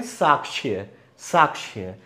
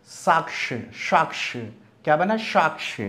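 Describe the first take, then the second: First: साक्ष्य with a plain s and छ-like middle plus y; common pronunciation. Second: साक्ष ending in क plus श, sh-like start; correct pronunciation. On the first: Teacher shows what people usually say, common pronunciation. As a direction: say साक्ष्य the everyday way, falling. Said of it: "वैसे इसे क्या बोलते हैं?". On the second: Teacher derives the word for learners, correct pronunciation. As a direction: model साक्ष with k-sh at the end. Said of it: "इसी तरह ये क्या बना?". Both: Shown as a demonstration.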